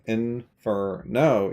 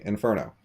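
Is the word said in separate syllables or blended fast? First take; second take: separate syllables; blended fast. First: It is said slowly, syllables apart. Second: It is said fast, syllables blended.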